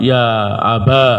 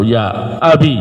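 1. Kata itu berakhir dengan vokal a panjang. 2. Kata itu berakhir dengan vokal i pendek. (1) "Kasrahnya diganti fathah, ya'nya diganti alif" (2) "Ya-nya dibuang terus cukup dengan tanda kasrah"

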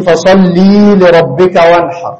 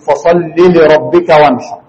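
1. الحركة بعد اللام تتمد وتطول. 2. الحركة بعد اللام تفضل قصيرة. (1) "ما تقولش" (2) "قول"

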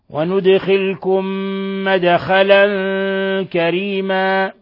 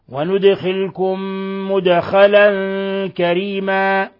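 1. تُنطق الكلمة 'madkhalan' بصوت 'a'. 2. تُنطق الكلمة 'mudkhalan' بصوت 'u'. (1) "بفتح الميم" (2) "أي بضم الميم"

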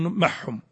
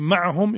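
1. العين تُدغم في الحاء فتصير حاءً مشدّدة. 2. الصامت الأوسط هو العين، وهو صوت حلقي مجهور. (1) "يقولون محهم، يدغمون هذا الإدغام" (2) "يقولون في معهم"

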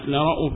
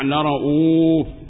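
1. الحركة بعد الهمزة تُختلَس وتُقصَر. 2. الحركة بعد الهمزة تُشبَع وتُمَدّ. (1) "والاختلاس" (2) "الإشباع"

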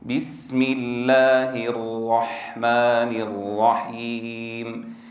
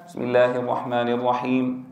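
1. تُنطق الحروف بعناية، بكامل صفاتها. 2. تُنطق الحروف بشكل عادٍ، دون عناية خاصة.

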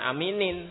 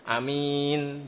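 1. Katanya berakhir dengan vokal i setelah n. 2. Katanya berakhir pada n tanpa vokal. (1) "bukan aminin, salah" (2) "berhenti, sukun"

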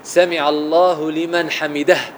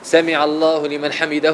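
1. الهاء الأخيرة تُنطق بنفَس مسموع. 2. الهاء الأخيرة تُقطع بدون نفَس. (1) "وتأتي بالهاء همسا" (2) "ما تقولش سمع الله لمن حمده"

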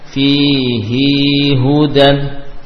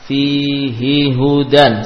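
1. Vokal dalam 'hi' dibaca panjang. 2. Vokal dalam 'hi' pendek. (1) "tidak dibaca dengan fihi hudan" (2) "maka tidak dibaca panjang"

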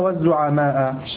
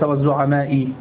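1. الكلمة لا تنتهي بكسرة. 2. الكلمة تنتهي بكسرة. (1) "سيكون هم الرؤساء والزعماء" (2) "الزعماء هنا تحتها كسرة وهذا غير صحيح"

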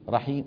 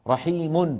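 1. تنتهي الكلمة بميم صامتة. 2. تنتهي الكلمة بالتنوين الأنفي '-un'. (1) "حذفوا التنوين ووقفوا بالسكون" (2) "مرفوعة مثل رحيم"

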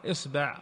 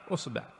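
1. الحركة الأولى هي صوت i. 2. الحركة الأولى هي صوت u. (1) "بكسر الهمزة" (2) "وضمها"

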